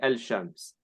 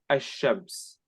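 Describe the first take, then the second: First: The L is clearly pronounced before sh. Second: The L blends into a doubled sh sound. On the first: The speaker calls it wrong. "You don't say al-shams" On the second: The speaker calls it right. "you say ash-shams"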